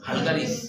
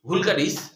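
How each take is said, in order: First: The first vowel sounds like 'a' in 'val'. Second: The first vowel sounds like 'u' in 'vul'. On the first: The speaker calls it right. "ভাইভাতে বললে তো ভালগারিসই বলতে হবে" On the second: The speaker calls it wrong. "ভুল করলা উচ্চারণটা"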